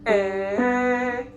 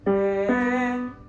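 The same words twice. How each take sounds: First: The vowel starts with a sharp glottal pop. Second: The vowel starts with a soft breathy h. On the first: "glottal attacks, which are like A, that pop" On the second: "put an H in front of it"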